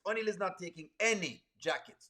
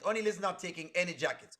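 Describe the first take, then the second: First: ANY stretched out, then a slight break; stress on ANY. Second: Said in the usual way. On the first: Real, not acted. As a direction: lean hard on the word any. Repeats refusal, stressing any.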